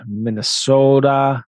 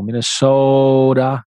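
First: Slow Minnesota "Minnesota" with a falling end; Minnesota accent. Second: "Minnesota" very slow with a long, drawn-out O in "so"; long stretched O. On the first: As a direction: draw "Minnesota" out slowly like a local. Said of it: "They say it really slow". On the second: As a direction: lean hard on the O of "Minnesota", mock-local style. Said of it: "They emphasize the O". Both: Shown as a demonstration.

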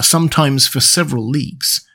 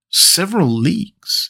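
First: Said in the usual way. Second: A slow astonished rising question; exclaimed surprise. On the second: A narrator's reading. Conseil echoing the captain's claim, slow astonished question. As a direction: echo it back in slow disbelief. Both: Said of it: "exclaimed Conseil".

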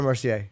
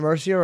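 First: "Mercier" ending in "ay"; French-style ending. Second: "Mercier" ending in a plain English "ee-er"; anglicized ending. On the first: Host checking a fighter's name, "Mercier" said with a French -ay ending. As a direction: say "Mercier" as mer-see-AY. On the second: Host checking a fighter's name, "Mercier" said with an English -er ending. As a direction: say "Mercier" as MER-see-er. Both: Shown as a demonstration. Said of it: "Is it Mercier or Mercier?".

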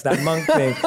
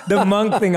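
First: Said in the usual way. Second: Breaks into a laugh on the repeat, louder. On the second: Real, not acted. To his guest, repeating the monk joke through a real laugh.

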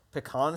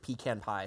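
First: "Pecan" as puh-KAHN; "Pecan" pronounced puh-KAHN; standalone pronunciation. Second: "pecan" as PEE-can in "pecan pie"; "pecan" with long ee and flat a before pie; pie pronunciation. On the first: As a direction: say "Pecan" stressed on the end with an ah. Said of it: "sounds better as an individual word". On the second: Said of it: "sounds better to me". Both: Shown as a demonstration.

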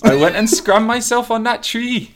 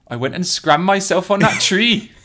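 First: Higher, louder Welsh accent. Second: High, hammed-up Welsh accent; a mild Welsh accent. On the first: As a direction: lay the Welsh accent on thicker. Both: Shown as a demonstration. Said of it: "you're funny with accents".

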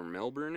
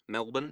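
First: Said in the usual way. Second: "Melbourne" as MEL-bun, the r dropped; Australian-style pronunciation. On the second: Shown as a demonstration. Co-host checking an Australian place name, "Melbourne" said as MEL-bun. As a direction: say "Melbourne" the Australian way, second syllable swallowed, questioning.

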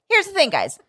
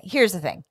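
First: "Here's" raised high and stressed; emphatic announcement. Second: Said in the usual way. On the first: Real, not acted. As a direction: lift "Here's" up for the big point. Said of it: "repeated higher". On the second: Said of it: "repeated catchphrase".

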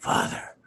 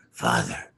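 First: Breathy whisper of father; hushed mock plea. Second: Very low drawn-out father; low mock groan; deep groaned father. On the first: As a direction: whisper it pleading. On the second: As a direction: drop the voice right down. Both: Voicing character pleading.

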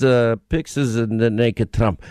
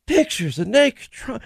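First: Put-on low, slow Russian-accented answer; deep Russian accent, matter-of-fact. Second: High, slow mocking echo; pitched-up shocked congressman repeat; Adam Schiff impression. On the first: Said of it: "[name], your Russian accent". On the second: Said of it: "That's Adam Schiff".

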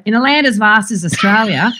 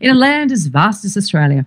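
First: Put-on broad bogan Aussie accent. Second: Front-of-mouth vowels, careful Australian newsreader; elocution-lesson Australian, vowels thrown forward; polished elocution accent. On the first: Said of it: "the producers were like, "Cringe". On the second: Shown as a demonstration. Host demonstrating her cleaned-up television voice, measured and polished. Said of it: "I go back to that phrase".

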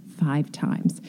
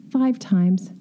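First: "Five times" dropped much softer and lower; rueful quiet repeat. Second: Firm, stressed "Five times"; emphatic answer. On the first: Designer repeats the count of broken slabs to herself, quiet and rueful. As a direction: let "Five times" sink, rueful and soft. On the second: Designer answers her own question about the broken slab, firmly stressing "Five". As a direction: land "Five" hard as the answer. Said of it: "How many times did we do this?". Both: Real, not acted.

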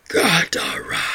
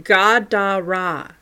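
First: Breathy whispered beast speech; creature whisper. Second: Said in the usual way. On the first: Acted. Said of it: "attempting to actually speak". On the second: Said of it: "saying what sounded like Gadara".

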